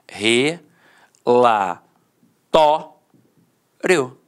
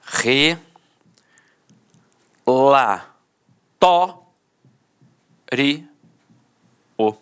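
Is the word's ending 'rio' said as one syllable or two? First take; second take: one; two. First: The ending 'rio' is one gliding syllable. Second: The ending is split into two syllables, 'ri-o'. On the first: This is the traditional pattern recorded in dictionaries. "a penúltima sílaba era a sílaba mais forte e a última, de fato, perdia a força" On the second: This is an extended everyday form now also in dictionaries. "separa o O do I"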